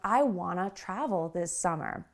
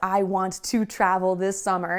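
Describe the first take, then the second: First: The sounds are reduced and run together. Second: Every word is said fully and clearly.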